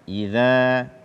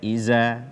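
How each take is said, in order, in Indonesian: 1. Konsonan tengahnya adalah 'th' seperti dalam 'this'. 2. Konsonan tengahnya adalah bunyi 'z' biasa. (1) "keluar dari ujung lidah menyentuh ujung gigi seri atas" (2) "Jangan sampai kita ganti dengan zai"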